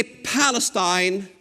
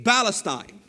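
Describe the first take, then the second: First: Said in the usual way. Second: Palestine with the P softened away, Arabic style; Arabic pronunciation. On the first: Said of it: "We don't say Palestine". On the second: Shown as a demonstration. Preacher showing how Arabs say it, Arabic-style Palestine. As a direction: say Palestine as an Arabic speaker would, no English P. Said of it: "we say Palestine".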